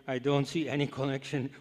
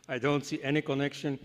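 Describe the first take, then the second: No difference in how they are said.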